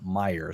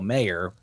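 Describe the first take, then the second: First: The first syllable sounds like 'my'. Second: The first syllable sounds like 'may'. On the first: The speaker calls it right. "It's actually pronounced Meyer" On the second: The speaker calls it wrong. "I was always calling him Marcelo Mayer, but because that's how it looks like it's spelled"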